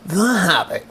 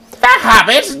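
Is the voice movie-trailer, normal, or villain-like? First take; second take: movie-trailer; villain. First: It is said in a dramatic movie-trailer narrator voice. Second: It is said in a growling cartoon villain voice. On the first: "I didn't say movie voice" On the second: "saying it like Skeletor"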